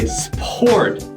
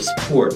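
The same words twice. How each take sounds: First: The consonants are said the way a learner would. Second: The consonants are said the standard English way. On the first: The speaker calls it wrong. "You might hear a Chinese kid trying to say sport" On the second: The speaker calls it right. "instead of sport"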